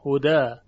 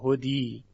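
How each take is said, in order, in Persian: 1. واکه پایانی a باز و روشن است. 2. واکه پایانی i کامل است. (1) "در اینجا ما الف تلفظ میکنیم" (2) "تبدیل به یاش نمیکنیم که بگیم هدی، هدی غلطه"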